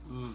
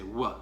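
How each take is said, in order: First: The letter is said with a v sound. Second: The letter is said with a w sound. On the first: This is the pronunciation used in this course. "we're going to say V" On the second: This is how many classical Latin speakers say it. "pronounce this as a W"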